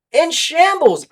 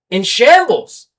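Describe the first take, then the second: First: In shambles thrown way up high, pitch leaping on shambles; emphatic repeat. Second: Loud, hard-hit shambles in the middle of a rant; indignant. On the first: Repeating the point to fans, pitched way up. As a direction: echo In shambles much higher to hammer it home. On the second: Fuming to listeners about old Dodgers mess, loud. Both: Real, not acted.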